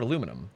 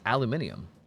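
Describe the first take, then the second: First: It is said in the American way. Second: It is said in the British way. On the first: "In American English, this element is called aluminum" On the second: "in British English, it's more commonly referred to as aluminium"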